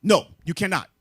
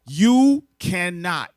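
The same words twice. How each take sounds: First: Louder, firm flat denial; emphatic no. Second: Very slow and louder, each word leaned on; drawn-out emphasis. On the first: Preacher answering the crowd, loud firm denial. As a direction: shut the idea down hard. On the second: Preacher hammering the point home, slow and loud. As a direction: stretch it out so it sinks in. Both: Real, not acted.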